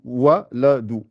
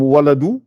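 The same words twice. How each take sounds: First: Slowly spelled out "waladou"; slow repetition. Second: "waladou" raised, rising; Arabic word. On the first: Teacher repeating the word slowly for students, "waladou". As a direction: stretch each syllable of "waladou". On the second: Teacher giving an Arabic example word, raised "waladou". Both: Shown as a demonstration. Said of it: "Par exemple, waladou".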